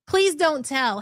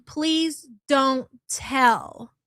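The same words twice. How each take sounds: First: Said in the usual way. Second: Slow drawn-out quote. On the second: Retold or imitated.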